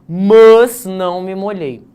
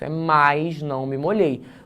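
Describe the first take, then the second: First: The first word is said without an I sound. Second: The first word is said with an I sound. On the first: The speaker calls it wrong. "Não existe isso" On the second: The speaker calls it right.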